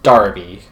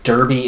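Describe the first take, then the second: First: The first vowel sounds like 'car'. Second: The first vowel sounds like 'fur'.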